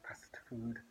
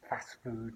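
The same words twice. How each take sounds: First: Not fast food with the weight on fast; stress on fast. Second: Fast food with the weight landing on food; stress on food. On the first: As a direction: contrast it by leaning on fast. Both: Shown as a demonstration. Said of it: "not fast food".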